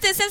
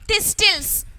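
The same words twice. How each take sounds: First: The word is said without a T sound. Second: The word is said with a T sound. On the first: The speaker calls it right. "But I pronounce as thistles" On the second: The speaker calls it wrong. "I didn't say thistles"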